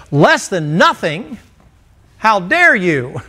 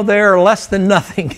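First: Slow, rising disbelief on less than nothing; mock outrage. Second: They're less than nothing, slow and weighty; emphatic correction. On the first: Preacher voicing an offended hearer, mock indignant. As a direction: play the offended listener, hammed-up. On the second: Shown as a demonstration. Preacher correcting the congregation, firm and slow. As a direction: lean on less than nothing, then let it land.

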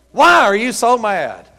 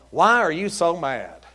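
First: Louder, higher, slow title delivery; slow, forceful preacher's question; emphatic repeat. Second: Said in the usual way. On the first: Real, not acted. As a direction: punch out the question to the congregation.

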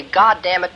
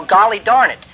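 First: "God damn it" with weight on God; a preacher's earnest God damn it; forceful oath. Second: Higher, louder prim "Golly darn it"; the timid polite swap; a prissy euphemism, hammed up; mock mild substitute. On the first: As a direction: declare "God damn it" like a clarion call. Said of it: "where you want to say". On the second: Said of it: "it isn't appropriate". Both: Shown as a demonstration.

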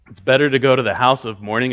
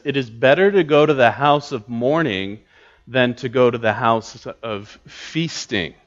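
First: Quick reading with "better" punched and rising; stress on better. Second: Said in the usual way. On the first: Shown as a demonstration. Pastor re-reading the verse to his class, punching "better". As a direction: drive the line through to land on "better". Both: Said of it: "notice that the emphasis there".

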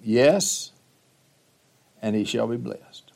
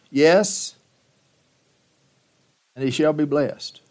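First: Softer repeat, stress on shall; quiet emphasis. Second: Louder, higher declaration of the blessing; firm pronouncement. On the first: Shown as a demonstration. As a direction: lay it down quietly, weighting shall. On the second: Acted. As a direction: proclaim it with finality. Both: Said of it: "Now remember that phrase".

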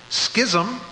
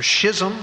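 First: Schism said as "SKIZ-um"; hard SK pronunciation. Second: Schism said as "SHIZ-um"; soft SH pronunciation. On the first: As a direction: start schism with a hard S-K sound. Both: Shown as a demonstration. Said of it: "however you want to pronounce it".

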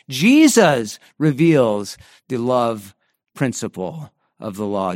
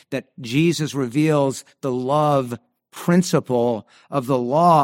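First: Jesus leaned on, the phrase slowed right down; stress on Jesus. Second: Said in the usual way. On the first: Shown as a demonstration. Preacher showing the congregation where the stress goes, weight on Jesus. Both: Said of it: "the emphasis there is on the word Jesus".

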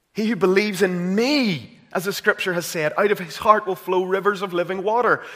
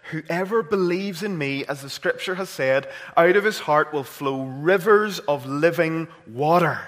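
First: Louder, higher, ringing scripture; preaching at full force. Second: Scripture quote, measured. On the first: Preacher repeating the verse to the church, fervent preaching. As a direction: proclaim the verse with growing fire. Quoting Jesus again, rising. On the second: Preacher quoting John to the congregation, earnest. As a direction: read the verse with steady emphasis. Quoting Jesus, first reading. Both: Acted.

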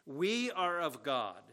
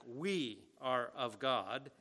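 First: "We" stressed, said slowly; emphatic WE. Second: Slow "We are of God", weight on "We"; emphatic WE. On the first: Preacher quoting John's claim, stress on "We". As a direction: hit "We" hard and slow in "We are of God". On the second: Preacher repeating John's words, stress on "We". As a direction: draw it out, leaning on "We". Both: Shown as a demonstration. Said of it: "Again, it's emphatic".

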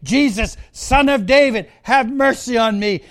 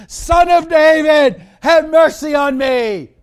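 First: Mild, raised call for mercy. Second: Loud, high pleading shout; crying out even louder. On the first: Blind Bartimaeus calling out to passing Jesus, mildly raised. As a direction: call out with restrained force, a touch higher. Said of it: "He called out". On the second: Bartimaeus crying out even louder for Jesus to hear. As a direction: belt out the plea, much higher. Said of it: "he cried out even louder". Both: Acted.

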